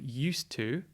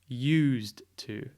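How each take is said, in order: First: It is blended together like one word. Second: Use is stressed and separated from to. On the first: It means being accustomed to something or a past habit. "Rather than saying used to" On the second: It means something serves a purpose. "there's a bit more emphasis on the use ... It's a bit more separate"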